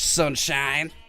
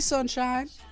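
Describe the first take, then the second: First: It sounds mocking and sarcastic. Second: It sounds warm and sincere. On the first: The kind word is used ironically as a jab. "With besmirchment underneath our breath" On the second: The speaker genuinely means the kind word. "and you actually mean it"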